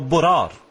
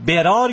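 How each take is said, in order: First: The first vowel is a rounded 'o'. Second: The first vowel is an open 'a'. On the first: "یا او" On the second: "ب میگید یا او"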